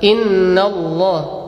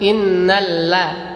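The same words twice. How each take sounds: First: The l in Allah sounds heavy and dark. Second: The l in Allah sounds light and thin. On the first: The speaker calls it right. "Yang fathah" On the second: The speaker calls it wrong.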